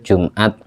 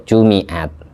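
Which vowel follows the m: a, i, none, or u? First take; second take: none; i. First: The m is followed by no vowel. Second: The m is followed by an i vowel. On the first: "Ada yang membaca sukun" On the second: "mimnya baca kasroh"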